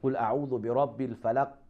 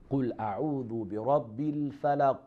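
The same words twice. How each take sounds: First: The final q sound is muted, without any bounce. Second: The final q sound has a short echoing bounce. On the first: The speaker calls it wrong. "If I don't pronounce the qalqala, so you don't hear the letter qaf" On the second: The speaker calls it right. "So we have to say like this"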